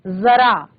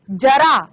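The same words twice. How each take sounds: First: जरा with ज as a buzzing z; nukta z sound. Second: जरा with a hard j; wrong j sound. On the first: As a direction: say जरा as "zara". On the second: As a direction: say जरा as "jara". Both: Shown as a demonstration. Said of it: "नहीं".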